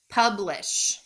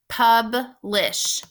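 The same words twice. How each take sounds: First: Said in the usual way. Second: "Publish" as pub, short pause, lish; split into syllables. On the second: Shown as a demonstration. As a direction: break "Publish" into two distinct beats for learners. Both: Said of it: "think about those two syllables".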